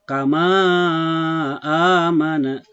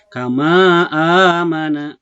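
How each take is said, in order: First: The long vowel is drawn out for extra length. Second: The long vowel is held for a normal, short length. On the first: "Atau lebih panjang"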